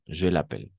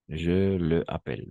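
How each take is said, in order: First: The pronoun's vowel is dropped and joined to the verb. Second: The pronoun keeps its own vowel before the verb. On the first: The speaker calls it right. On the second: The speaker calls it wrong.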